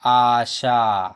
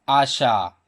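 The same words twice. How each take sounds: First: आशा very slow, both long आ vowels held; sounded-out word. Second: Said in the usual way. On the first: Shown as a demonstration. Teacher joining the sounds for pupils, आशा stretched slowly. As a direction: draw out each syllable of आशा. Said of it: "तो इस प्रकार हो गया ये". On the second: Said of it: "आ वाला शब्द लेता हूँ एक".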